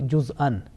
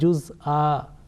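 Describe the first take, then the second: First: The word ends with a nasal 'an' sound. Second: The word ends with a long plain 'a' vowel. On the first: The word is read in running recitation. "double fatha and producing a nasal sound" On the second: The reciter stops on this word. "in waqf, that will change into one stroke, one fatha followed by alif"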